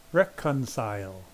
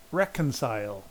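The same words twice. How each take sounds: The two takes are said the same way.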